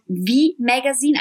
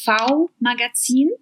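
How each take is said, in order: First: "V Magazine" said the English way, V as "vee"; English pronunciation. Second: "V Magazin" said the German way, V as "fau"; German pronunciation. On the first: English title, then German version. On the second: German version of English title. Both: Shown as a demonstration.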